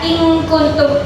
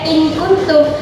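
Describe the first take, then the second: First: The n is hidden with a nasal sound. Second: The n is pronounced clearly and fully. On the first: The speaker calls it right. "akan tetapi dibaca in kuntum" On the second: The speaker calls it wrong. "bukan dibaca in kuntum"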